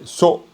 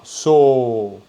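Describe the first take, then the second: First: The vowel is short and cut off. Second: The vowel is long and open. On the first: The speaker calls it right. "ça ferme le son" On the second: The speaker calls it wrong. "c'est pas so"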